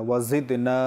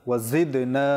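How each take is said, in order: The two takes are said the same way.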